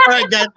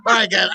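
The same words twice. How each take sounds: First: High call. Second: Said in the usual way. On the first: Real, not acted.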